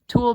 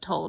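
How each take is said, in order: First: The vowel is an oo sound, like 'tool'. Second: The vowel is an oh sound, like 'toll'. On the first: The speaker calls it right. "Tool being T U L L E" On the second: The speaker calls it wrong. "Some people pronounce that toll, but I don't think it's pronounced like that"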